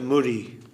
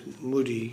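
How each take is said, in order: First: The middle consonant sounds like an R. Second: The middle consonant sounds like a D. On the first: This is how people usually say it. "They pronounce it muri" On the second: This matches how the word is written. "but it's mudi"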